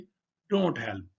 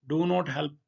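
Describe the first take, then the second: First: Do and not merge into one syllable, don't. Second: Do and not are said as separate words.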